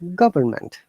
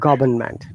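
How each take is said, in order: First: The r sound is clearly pronounced. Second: The r sound is left silent. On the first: "In American English, this is government" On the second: "British English, government. No R sound"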